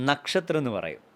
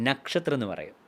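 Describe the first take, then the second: The two takes are said the same way.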